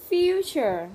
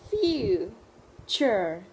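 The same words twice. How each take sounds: First: "Future" as one loud, connected word, high then falling; whole word. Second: "Future" split into two slow, separated syllables. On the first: Teacher modelling a word for Vietnamese learners, whole word. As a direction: say "Future" unbroken, loud and clear. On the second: Teacher modelling a word for Vietnamese learners, syllable by syllable. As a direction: break "Future" into FU, then CHURE. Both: Shown as a demonstration.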